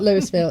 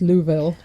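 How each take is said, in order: First: The city name is said the outsider's way. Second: The city name is said the local way. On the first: The speaker calls it wrong. "not Louisville" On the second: The speaker calls it right. "It's Louisville. If you live there, it's Louisville"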